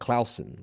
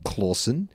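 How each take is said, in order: First: The name is pronounced the Danish way. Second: The name is pronounced the English way. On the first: "the Danish pronunciation" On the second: "is an anglicized version"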